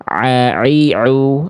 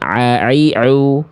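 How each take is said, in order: First: Each vowel starts with a strained throat sound. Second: The same.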